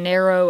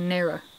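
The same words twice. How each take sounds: First: The word ends with an 'oh' sound. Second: The word ends with an 'er' sound. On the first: "instead of saying narrow" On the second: "I'll say narrow"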